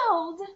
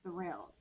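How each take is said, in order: First: It is said in a lively, excited voice. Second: It is said in a plain, ordinary voice. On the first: "say thrilled like you are thrilled" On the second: "Say the word thrilled with me"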